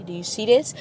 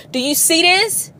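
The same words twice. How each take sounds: First: Said in the usual way. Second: "Do you see this?" louder and higher, rising on "this"; pressing the stuck driver to notice the siren; urgent repeat. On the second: Pretend. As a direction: call out "Do you see this?" again with real urgency. Repeats question, second louder.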